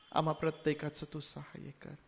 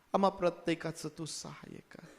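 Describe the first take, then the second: Both takes have the same delivery.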